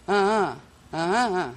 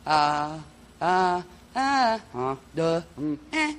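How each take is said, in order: First: Paired vocal tones, louder; two-syllable tone sounds. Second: Short single vocal tones; toning one syllable at a time; one-syllable tone sounds. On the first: Teacher demonstrating two-syllable tones. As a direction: tone in pairs of syllables. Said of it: "two would be like". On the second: Teacher demonstrating single tones. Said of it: "one syllable would be like". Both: Shown as a demonstration.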